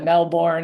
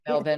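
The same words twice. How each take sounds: First: It is said the way outsiders say it. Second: It is said the local Australian way.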